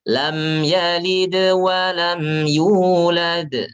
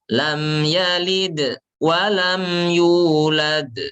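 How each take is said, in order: First: The bounced consonant flows straight into the next sound. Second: The sound breaks off after each bounced consonant. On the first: The speaker calls it right. "Tapi caranya gini, jangan terputus" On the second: The speaker calls it wrong. "Terputus tuh begini nih"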